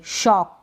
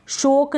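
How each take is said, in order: First: Said in the usual way. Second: शोक with a long o, "shoke"; wrong pronunciation. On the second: Shown as a demonstration. Teacher rejects a reading of shock, mispronounced शोक. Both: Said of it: "शोक नहीं पढ़ेंगे".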